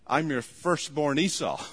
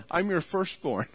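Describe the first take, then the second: First: "Esau" carries the stress as the final word; Esau's line to his father, name stressed last. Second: Firstborn lands as the weighty last word, said a little higher; Jacob's claim with the stress falling on firstborn. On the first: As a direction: end on "Esau" and lean on it. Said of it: "Switches it". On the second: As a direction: put the weight on "firstborn" at the end. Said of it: "The emphasis is on, "I'm your firstborn". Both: Shown as a demonstration.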